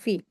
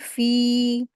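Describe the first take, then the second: First: The vowel is clipped short and quick. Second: The vowel is drawn out for two counts. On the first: The speaker calls it wrong. "इसको जल्दी पढ़ देते हैं" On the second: The speaker calls it right. "दो हरकत खींचेंगे फ़ी को"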